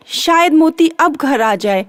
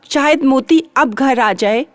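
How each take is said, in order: Both takes have the same delivery.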